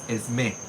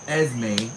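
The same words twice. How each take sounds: First: The stress falls on the last syllable. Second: The stress falls on the first syllable. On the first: The speaker calls it right. "With the accent at the end, it's Esme" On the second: The speaker calls it wrong. "Not Esme"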